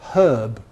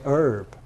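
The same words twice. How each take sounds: First: It is said the British way, with h. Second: It is said the American way, without h.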